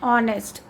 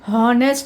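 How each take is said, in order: First: The word starts with a vowel, no h. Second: The word starts with an audible h sound. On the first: The speaker calls it right. "यहाँ पे एच जो है silent है" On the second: The speaker calls it wrong. "हॉनेस्ट नहीं बोलते"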